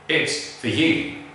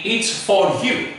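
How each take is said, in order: First: The word 'for' is reduced to a schwa. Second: The word 'for' has a full, unreduced vowel. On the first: The speaker calls it right. "let's take a look at the correct pronunciation. The schwa" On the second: The speaker calls it wrong. "The wrong pronunciation would be"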